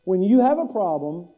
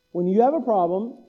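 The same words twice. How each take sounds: The two takes are said the same way.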